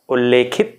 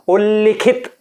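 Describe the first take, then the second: First: The second syllable has an 'e' vowel. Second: The second syllable has an 'i' vowel. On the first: The speaker calls it wrong. "यह गलत है" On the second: The speaker calls it right. "सही शब्द"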